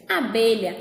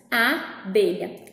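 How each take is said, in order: First: Said in the usual way. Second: ABELHA slowly, A set apart from belha; syllable split. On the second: Shown as a demonstration. Teacher isolating the first syllable, abelha split after A. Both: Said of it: "que é a sílaba A".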